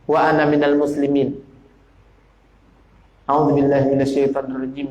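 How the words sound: A short pause separates the two phrases. The speaker calls it right. "Jadi jarai ... Baru pas"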